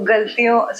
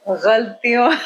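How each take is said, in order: First: It begins with a plain hard g sound. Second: It begins with a throaty, fricative gh sound. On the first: The speaker calls it wrong. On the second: The speaker calls it right.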